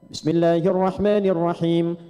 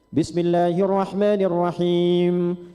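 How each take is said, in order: First: The final vowel is held only briefly. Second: The final vowel is held moderately long.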